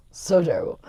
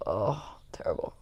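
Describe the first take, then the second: First: Said in the usual way. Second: Soft whispered moan; whispered groan. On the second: Real, not acted. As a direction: whisper it as if still feeling sick. Recalling a bad hangover day.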